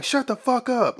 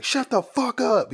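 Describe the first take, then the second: First: A cop with his gun drawn silencing a suspect; barking cop. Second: Slow snarled command, pitched much higher; a cop with his gun drawn silencing a suspect; barking cop. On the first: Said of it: "He like". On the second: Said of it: "The dude's like". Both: Retold or imitated.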